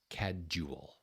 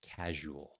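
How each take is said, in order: First: The middle consonant is a d sound. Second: The middle consonant is a zh sound. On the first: The speaker calls it wrong. "The zh sound is not a D sound, so this is not casual" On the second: The speaker calls it right. "try to make that one properly"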